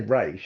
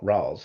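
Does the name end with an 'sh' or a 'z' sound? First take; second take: sh; z. First: The name ends with an 'sh' sound. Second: The name ends with a 'z' sound. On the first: This is how the character's creator says it. "the reason I say Raish" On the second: This is how the actors in the film say it. "and not Raz, like everyone in this film"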